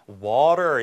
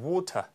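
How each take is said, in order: First: It is said in an American accent. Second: It is said in a British accent. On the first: "이게 아니고" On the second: "영국식 발음은 자, T 발음 둔탁하게 내는 뿐만 아니라 앞에 모음이 우에 가깝죠"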